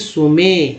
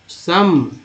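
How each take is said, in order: First: The word sounds like soo-may, with two syllables. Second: The word sounds like sum, with a short vowel. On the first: The speaker calls it wrong. "न कि सुमे" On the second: The speaker calls it right. "ई का उच्चारण जो है अ के रूप में हुआ सम"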